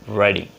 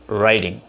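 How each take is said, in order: First: Said with a native-speaker accent. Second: Said with a native-speaker accent.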